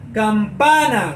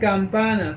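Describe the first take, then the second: First: The stressed syllable is hit strongly and projected. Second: The stressed syllable is weak and swallowed. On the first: The speaker calls it right. "Golpeo ese sonido de la A porque ahí es que está el acento" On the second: The speaker calls it wrong. "yo no puedo decir campana"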